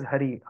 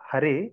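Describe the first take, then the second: First: "Hari" ending in an "ee" sound; correct pronunciation. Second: "Hare" ending in an "eh" sound; contrasted pronunciation. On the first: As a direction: say "Hari" with a final I, as in "ha-ree". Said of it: "it is Hari". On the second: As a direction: say "Hare" with a final E, as in "ha-reh". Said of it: "Actually, it is not Hare". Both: Shown as a demonstration.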